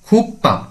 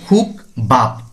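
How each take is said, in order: First: The second syllable starts with a tense p. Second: The second syllable starts with a soft b. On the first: The speaker calls it right. "বিয়োগটি হবে পয়ের মতো" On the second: The speaker calls it wrong. "অনেকে বলে খুক বাপ"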